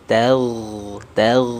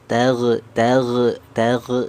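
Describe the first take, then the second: First: The gh sound flows smoothly without bouncing. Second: The gh sound bounces with a sharp rebound. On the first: The speaker calls it right. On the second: The speaker calls it wrong. "jangan sampai apa terpantul"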